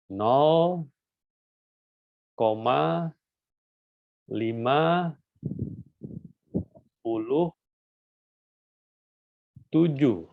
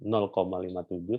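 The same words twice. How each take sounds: First: "Nol koma lima puluh tujuh" drawn out, each word apart with long pauses; wrong reading. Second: "nol koma lima tujuh" with "lima tujuh" as separate digits, lower and calm; correct reading. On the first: Teacher to students, demonstrating the common mistaken decimal reading. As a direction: read "lima puluh" as fifty, slowly and deliberately. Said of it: "Ada yang nyebut begini ya". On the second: Teacher to students, modelling the correct decimal reading. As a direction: read the digits one by one. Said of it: "Kalau nolnya tidak ada". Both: Shown as a demonstration.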